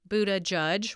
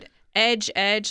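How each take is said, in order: First: The name is said as buddha-judge. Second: The name is said as boot-edge-edge. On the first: "which I think is the fun way to pronounce it" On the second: "like the edge of a, a counter"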